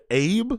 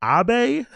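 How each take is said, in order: First: Abe as "ayb", rising question; higher, questioning Abe, rhyming with "babe"; one-syllable pronunciation. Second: High Abe in two syllables, "ah-BAY"; African pronunciation. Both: Shown as a demonstration. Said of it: "when you see Abe and you see Abe".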